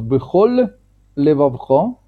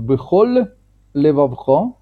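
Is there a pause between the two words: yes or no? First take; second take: yes; yes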